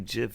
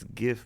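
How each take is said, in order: First: The word begins with a soft J sound. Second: The word begins with a hard G sound. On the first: "you don't say GIF" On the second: "it stands for graphics ... it's GIF"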